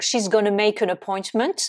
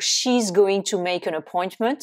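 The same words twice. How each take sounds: First: "gonna" as one reduced word; contracted gonna. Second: Said in the usual way. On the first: Shown as a demonstration. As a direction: squeeze "going to" into "gonna". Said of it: "un exemple avec". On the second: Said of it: "qui veut dire donc".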